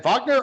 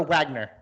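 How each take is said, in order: First: "Wagner" said with a V, VAHG-ner; "Wagner" as VAHG-ner, broad ah vowel; German pronunciation. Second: "Wagner" said with a W, WAG-ner; "Wagner" as WAG-ner, short a as in wag; English pronunciation. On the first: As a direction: say "Wagner" the German way, opening on a V sound. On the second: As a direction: say "Wagner" the American way, opening on a W sound. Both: Shown as a demonstration. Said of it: "is it Wagner or Wagner?".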